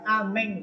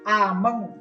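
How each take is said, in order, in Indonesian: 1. E-nya adalah vokal e depan yang jelas. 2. E-nya adalah vokal schwa tengah yang pendek. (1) "bukan ameng ya" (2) "Karena E-nya itu di atasnya tidak ada tanda petiknya"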